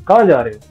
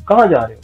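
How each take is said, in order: The two takes are said the same way.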